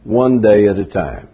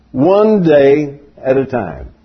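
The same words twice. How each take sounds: First: Said in the usual way. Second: Slow, measured "One day at a time"; emphatic repeat. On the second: Shown as a demonstration. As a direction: stretch out "One day", spacing the words deliberately. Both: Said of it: "say it in just a few words".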